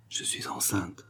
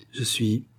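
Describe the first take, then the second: First: Near-whispered confession; very soft, barely voiced admission; lowered voice. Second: Hesitant second attempt, left hanging; faltering on the brink of confessing. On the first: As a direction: drop to a hushed whisper. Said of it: "elle baissa la voix". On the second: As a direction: begin the confession and stop short. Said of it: "elle hésita". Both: A narrator's reading.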